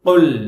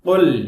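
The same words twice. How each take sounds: Both takes have the same delivery.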